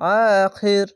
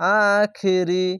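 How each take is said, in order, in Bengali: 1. শব্দটি স্বরহীন ব্যঞ্জন দিয়ে শেষ হয়। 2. শব্দটি একটি শেষ স্বরধ্বনি দিয়ে শেষ হয়। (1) "শেষ অক্ষরে সাকিন দিয়ে" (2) "রি না বলে"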